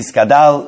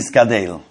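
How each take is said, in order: First: The last vowel is an a sound. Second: The last vowel is an e sound. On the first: "they say with the Pasach" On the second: "they don't say with the Tzeire"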